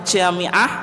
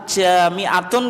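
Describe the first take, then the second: First: The word ends with a short 'ah' ending. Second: The word ends with a full 'tun' ending. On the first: The speaker stops on this word. "kalau diwakafkan ya jami'ah" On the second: The phrase continues without a stop. "boleh dibaca as-sholatu jami'atun"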